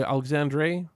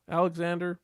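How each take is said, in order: First: "Alexandre" tried the French way, ending in -dre; a hesitant French attempt at "Alexandre"; French try at a name. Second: Said in the usual way. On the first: Shown as a demonstration. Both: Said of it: "I never know how to pronounce the, the French".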